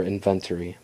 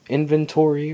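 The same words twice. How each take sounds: First: Said in the usual way. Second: "inventory" with a full TOR syllable, in-ven-TOR-ee; alternative pronunciation. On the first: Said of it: "I just say inventory". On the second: Shown as a demonstration. Player unsure how to say the word, alternative pronunciation. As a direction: say "inventory" with a clear "-tory" ending. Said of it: "how you really say it".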